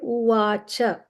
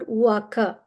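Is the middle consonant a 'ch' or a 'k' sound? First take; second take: ch; k. First: The middle consonant is a 'ch' sound. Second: The middle consonant is a 'k' sound. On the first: The speaker calls it right. "C A is always pronounced as C H A, Cha" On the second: The speaker calls it wrong. "It's not Uvaka"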